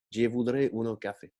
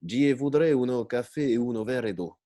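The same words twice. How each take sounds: First: Mock Italian accent, every syllable detached; slow fairground accent. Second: Put-on fairground Italian accent. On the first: Narrator repeats the inspector's order, slow mock Italian accent. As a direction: spell it out in a funfair Italian accent. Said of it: "lentement, avec un accent de foire et en détachant chaque, chaque syllabe". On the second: Old inspector ordering coffee, mock Italian accent. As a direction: ham up a funfair Italian, each syllable apart. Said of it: "avec un accent de foire et en détachant chaque".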